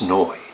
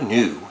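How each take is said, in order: First: The word does not sound like English 'new'. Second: The word sounds like English 'new'. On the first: The speaker calls it right. "it's Neu" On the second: The speaker calls it wrong. "not new"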